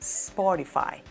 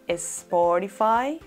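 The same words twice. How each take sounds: First: The word starts directly with the s sound. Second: An extra e vowel is added before the s. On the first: The speaker calls it right. "sino Spotify" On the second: The speaker calls it wrong. "No debemos pronunciarla como Spotify"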